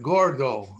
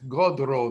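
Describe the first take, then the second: First: The R sound comes before the D. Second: The R sound comes after the D. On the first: This is the standard Spanish form. "Look at gordo" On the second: This is how Ladino speakers say it. "Reverse the D and the R. It's godro the way we pronounce it"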